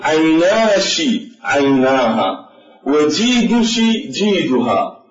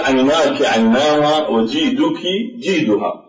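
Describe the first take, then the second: First: The 'your' ending is pronounced with a sh sound. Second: The 'your' ending is pronounced with a k sound. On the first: "الشاعر في حالة الكشكشة" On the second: This is the common form across Arabic dialects. "نحن في كل اللغات اللهجات العربية نقول"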